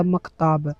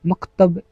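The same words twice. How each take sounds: First: "मकताब" with a long aa in the last syllable; long final vowel. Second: "मकतब" with a short a in the last syllable; short final vowel. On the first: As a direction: say "मकताब", stretching the ताब. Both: Shown as a demonstration. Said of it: "मकतब भी इसी को कहते हैं".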